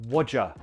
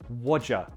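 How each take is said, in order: The two takes are said the same way.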